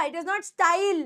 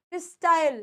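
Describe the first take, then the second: First: Style with a full ee, "sta-eel"; wrong pronunciation of style. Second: Style gliding into "yal", "sta-yal"; correct pronunciation of style. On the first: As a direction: say style as a mistaken "staa-il". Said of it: "आई नहीं आ रहा". (style को गलत "स्टाईल" बोलते हुए) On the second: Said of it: "अ और यल की आ रही है". (style का सही उच्चारण "स्टायल") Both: Shown as a demonstration.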